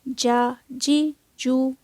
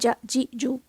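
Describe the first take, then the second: First: The vowels are of moderate, even length. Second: The vowels are cut off abruptly. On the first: The speaker calls it right. "झटका भी नहीं आएगा और लंबी भी नहीं होगी" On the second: The speaker calls it wrong. "एकदम से झटके से झटके से नहीं पढ़ना"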